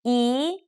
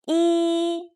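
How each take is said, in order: First: The pitch rises from middle to high. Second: The pitch stays high and level.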